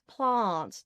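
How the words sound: It is said with an English-sounding, posher accent. It sounds a little more posh. "the part of Australia that has the English accent"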